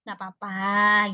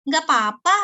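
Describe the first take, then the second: First: It is said in a flat, level voice. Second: It is said in a lively, expressive voice. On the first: "padahal bilang nggak papa itu datar" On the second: "beda kan ya gitu"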